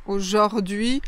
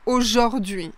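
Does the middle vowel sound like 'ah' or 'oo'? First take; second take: ah; ah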